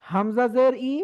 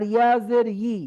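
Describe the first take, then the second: First: ই from the throat, without a y; throat-made i. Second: ই as yi, slowly drawn off the palate; tongue-made yi. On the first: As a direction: start ই cleanly in the throat. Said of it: "হামজা জেরটা হবে গলা থেকে". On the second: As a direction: slowly glide into ই with mid-tongue raised. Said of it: "দুইটার মাখরাজ আলাদা". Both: Shown as a demonstration.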